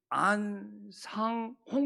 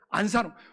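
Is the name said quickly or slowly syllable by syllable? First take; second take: slowly; quickly. First: It is said slowly, one syllable at a time. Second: It is said quickly, syllables run together. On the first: The speaker calls it right. "한자씩 안상홍 하면 되는데" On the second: The speaker calls it wrong. "내가 발음이 빠르면 그렇게 안 돼. 안산홍이라고 나와버려"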